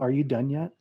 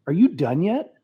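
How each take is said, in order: First: It is asked in a calm, neutral tone. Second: It is asked in an annoyed, impatient tone.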